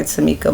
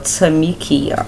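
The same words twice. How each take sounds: First: Tamika said as three syllables, ending in -ka; name as pronounced. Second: Tamikia with an extra ee before the final a; name as spelled. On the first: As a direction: say Tamika with MEE in the middle and a plain -ka ending. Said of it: "is pronounced Tamika". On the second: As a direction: say Tamikia with -kee-uh at the end. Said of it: "my name is spelled Tamikia". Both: Shown as a demonstration.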